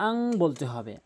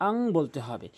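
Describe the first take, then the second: The two takes are said the same way.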